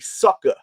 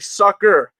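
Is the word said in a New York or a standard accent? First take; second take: New York; standard. First: The word is said in a New York accent. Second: The word is said in a standard accent. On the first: "you know you New York when you say sucker" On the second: "You don't say sucker"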